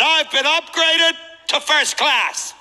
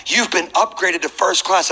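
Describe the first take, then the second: First: Much higher, slow, savoring every word; thrilled disbelief. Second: Said in the usual way. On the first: Retold or imitated. Upgraded passenger echoing the gate agent, thrilled and drawn out. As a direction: echo it back like a dream come true. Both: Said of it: "I said".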